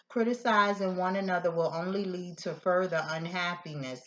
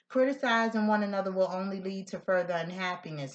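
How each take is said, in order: First: It is read a little more slowly. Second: It is read at a normal pace.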